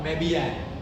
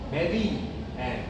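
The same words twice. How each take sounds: First: The words are joined by a gliding Y sound. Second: The words are said separately without a glide.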